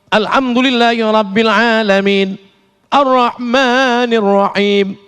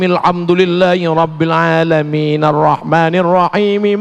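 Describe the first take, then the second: First: There is a clear stop between the verses. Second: The verses are joined without a stop. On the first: The recitation stops at each verse end. "Itu namanya wa wakaf" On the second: The recitation connects one verse to the next. "Namanya wa wasol"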